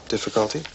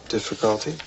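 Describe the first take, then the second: No difference in how they are said.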